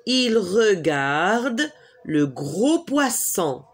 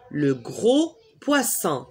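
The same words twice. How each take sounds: First: "Il regarde le gros poisson" said slowly with "gros" stressed; slow model answer. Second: Said in the usual way. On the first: Shown as a demonstration. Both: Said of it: "Il fait quoi?".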